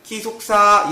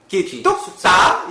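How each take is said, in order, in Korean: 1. 음높이가 계속 평평해요. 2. 음높이가 위로 확 올라가요. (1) "일성조는 기숙사" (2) "올라가는 겁니다. 함성조 싹은 기숙사"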